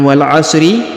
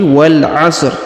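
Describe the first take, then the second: First: The phrase ends with a short i vowel. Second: The phrase ends on the bare r consonant. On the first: The speaker calls it wrong. "Bukan wal 'asri" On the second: The speaker calls it right. "tapi wal 'asr, karena kita sukunkan huruf terakhirnya"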